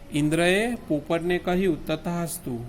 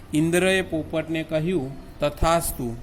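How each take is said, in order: Both takes have the same delivery.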